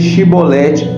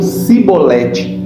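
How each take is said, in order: First: The word begins with a sh sound. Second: The word begins with a plain s sound. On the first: This is how the people of Gilead said it. The speaker calls it right. "eles não podiam dizer Shibolete" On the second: This is how the people of Ephraim said it. The speaker calls it wrong. "mas diziam Sibolete"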